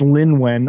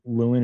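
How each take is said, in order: First: The name is said as Lin-wen. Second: The name is said as Lewin. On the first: The speaker calls it right. "Oh no, it's Lin Wen" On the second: The speaker calls it wrong. "I think you just started moving over to Lewin"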